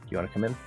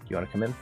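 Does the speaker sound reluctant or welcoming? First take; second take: welcoming; welcoming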